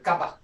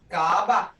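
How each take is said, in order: First: The vowel sound is cut short. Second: The vowel sound is held long. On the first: The speaker calls it wrong. "you can't say kaba" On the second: The speaker calls it right. "kaba is long"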